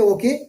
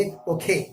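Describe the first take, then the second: First: اوکے with a plain, unaspirated k; unaspirated okay. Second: اوکھے with a breathy kh, like Urdu کھ; aspirated okhe. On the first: Teacher shows students local اوکے, plain unaspirated k. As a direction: say اوکے with a flat k, no puff. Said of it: "ہم بولتے تھے اوکے". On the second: Teacher shows students native اوکھے, k aspirated. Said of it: "کاف میں ہاں ملا کے جس طرح ہم خا بولتے ہیں". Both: Shown as a demonstration.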